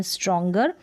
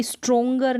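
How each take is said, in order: First: स्ट्रॉन्गर with a short a, struh-ngur; correct stronger. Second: स्ट्रॉन्गर with a full o, strong-ger; wrong stronger. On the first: Teacher models correct reading, स्ट्रॉन्गर with short a. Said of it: "अ पढ़ रहे हैं". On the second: Teacher contrasts wrong reading, स्ट्रॉन्गर with o. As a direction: demo the wrong स्ट्रॉन्गर, stroh-nger. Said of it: "ना कि स्ट्रॉन्गर नहीं आ रहा". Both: Shown as a demonstration.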